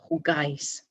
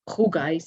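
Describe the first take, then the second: First: The stress is on the last syllable. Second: The stress is on the first syllable. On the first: The speaker calls it right. "the accent over the A in jugáis, that's where you put the stress" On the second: The speaker calls it wrong. "It's not jugáis"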